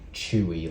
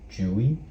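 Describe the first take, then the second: First: The name begins with a ch sound. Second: The name begins with a j sound. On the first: "like Chewbacca" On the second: "more of a like a J sound at the start"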